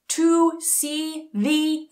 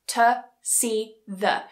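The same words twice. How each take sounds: First: The small words have full, clear vowels. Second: The small words have weak, reduced vowels. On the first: The speaker calls it wrong. "I don't say" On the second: The speaker calls it right. "They become much weaker"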